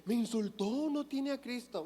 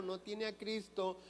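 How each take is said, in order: First: Imitando con burla, más agudo; sorpresa burlona. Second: Said in the usual way. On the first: Retold or imitated. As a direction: remeda al que se escandaliza de lo obvio. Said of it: "de decir". (el predicador imita a un creyente escandalizado, en tono burlón y agudo) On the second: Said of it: "No, pues claro".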